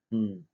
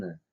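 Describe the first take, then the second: First: "н" as ng from the back of the tongue; velar ng. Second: Said in the usual way. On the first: Shown as a demonstration. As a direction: hum "н" as English ng. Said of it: "В результате получится звук". (заднеязычное «н», как ng) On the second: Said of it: "произнести обычную".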